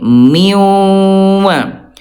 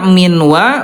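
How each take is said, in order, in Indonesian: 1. Bunyi n melebur ke dalam w, ditahan dan sengau. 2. Bunyi n diucapkan dengan jelas sebelum w.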